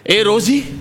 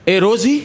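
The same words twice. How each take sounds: First: It is said with strong, passionate feeling. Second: It is said flatly, without much feeling. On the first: The speaker calls it right. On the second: The speaker calls it wrong.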